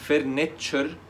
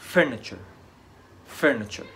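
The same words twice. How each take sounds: First: All syllables have equal loudness and length. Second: The stress is on the first syllable. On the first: The speaker calls it wrong. "ما تنطقش كل المقاطع زي بعضها في العلو الصوت او الزمن" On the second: The speaker calls it right. "المقطع الاول هو اللي عليه الستريس او الضغط ده"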